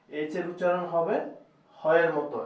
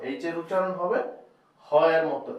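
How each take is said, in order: Both takes have the same delivery.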